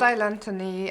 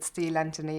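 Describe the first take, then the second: First: The vowel in the name sounds like 'eye'. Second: The vowel in the name sounds like 'ee'. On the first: "Style Anthony is fine" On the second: "I tend to pronounce it Steel Anthony in English"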